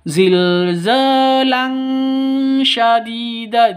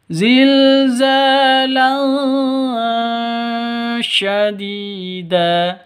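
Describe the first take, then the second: First: The n becomes a full, clear ng sound. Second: The n is a faint, hidden nasal hum. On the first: The speaker calls it wrong. "jangan ditambah dengan ng ... Itu salah total" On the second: The speaker calls it right. "Yang betul ... samar didengungkan"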